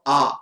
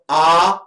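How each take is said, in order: First: The vowel's pitch glides between high and low. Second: The vowel is said on a high pitch. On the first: "which is Swaritah" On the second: "Uchchai Udatah"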